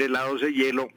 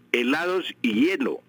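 First: "helados e hielo" with e before hielo, the form marked as wrong. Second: "helados y hielo" with the conjunction y before "hielo"; correct form y. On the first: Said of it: "no se puede decir helados e hielo". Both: Shown as a demonstration.

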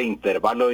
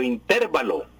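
First: Said in the usual way. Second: "intervalo" stressed on TER; in-TÉR-va-lo for "intervalo"; mistaken stress. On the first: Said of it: "lo correcto es precisamente intervalo". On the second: Shown as a demonstration. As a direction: move the stress in "intervalo" onto the E. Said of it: "y no intervalo".

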